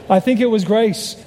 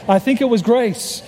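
No difference in how they are said.

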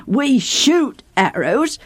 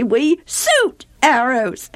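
First: Slow "We shoot arrows" with a clear "sh" in "shoot"; correct sh. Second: Slow "We suit arrows" with "shoot" said as "suit"; mock the lisp, laughing. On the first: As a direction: say "shoot" with a proper sh. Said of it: "Instead of saying". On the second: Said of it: "they say". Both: Shown as a demonstration.

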